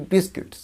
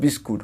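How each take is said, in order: First: বিস্কিটস as "BIS-kits", short i in the second syllable; corrected biscuits. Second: বিস্কুট as "bis-koot", with an "oo"; mispronounced biscuit. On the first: Teacher correcting the learners' pronunciation, corrected biscuits. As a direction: say বিস্কিটস with "-kits", not "-koot". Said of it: "ওটা উচ্চারণটা হবে কি? বিস্কিটস". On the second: Teacher quoting the common wrong form, mispronounced biscuit. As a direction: end বিস্কুট on "-koot" without an s. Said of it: "ওটা উচ্চারণটা হবে কি?". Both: Shown as a demonstration.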